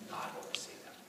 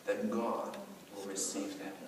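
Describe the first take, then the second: First: Soft whispered repeat; whispered echo. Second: Said in the usual way. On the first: Acted. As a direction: breathe the promise quietly. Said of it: "whispered echo". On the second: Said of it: "repeated line".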